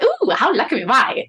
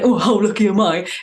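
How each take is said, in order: First: It is said in a warm, happy tone. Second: It is said in a negative, sarcastic tone.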